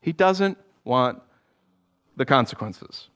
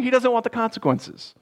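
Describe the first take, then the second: First: Slow repeat of "He doesn't want the consequences" with a pause; slow emphatic repeat. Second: Said in the usual way. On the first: Shown as a demonstration. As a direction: pause before "the consequences" and let it fall.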